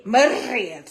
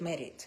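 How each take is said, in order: First: "Married" loud, with a long rolled R; heavily accented "Married". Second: Said in the usual way. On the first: Shown as a demonstration. Immigrant showing how she used to talk, "Married" with rolled R. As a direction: trill the R hard in "Married". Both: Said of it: "that's how I was talking".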